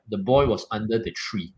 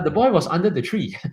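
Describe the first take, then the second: First: It is said in a deep, authoritative voice. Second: It is said in a light, weak voice.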